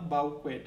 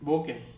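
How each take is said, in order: First: It is said as 'bow-kwet'. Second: It is said as 'boh-kay'. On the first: The speaker calls it wrong. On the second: The speaker calls it right.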